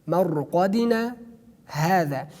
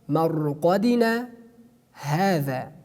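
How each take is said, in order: The two takes are said the same way.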